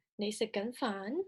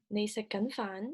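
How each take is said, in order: First: 你食緊飯 repeated, the pitch lifting clearly on the final 飯; rising question tune. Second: 你食緊飯 with the pitch rising on 飯 at the end; rising question tune. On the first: Teacher repeating the Cantonese example: 你食緊飯 rising on 飯. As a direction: ask 你食緊飯 again with a clear climb on 飯. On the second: Teacher demonstrating a Cantonese question: 你食緊飯 rising on 飯. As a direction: ask 你食緊飯 letting the voice climb on the last word. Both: Shown as a demonstration. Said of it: "noted the rising intonation towards the end".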